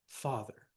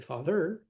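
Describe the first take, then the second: First: The stress is on the first syllable. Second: The stress is on the second syllable. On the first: The speaker calls it right. "the stress is on the first syllable. Like these" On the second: The speaker calls it wrong. "We don't say father"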